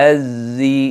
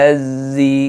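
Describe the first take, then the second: The two takes are said the same way.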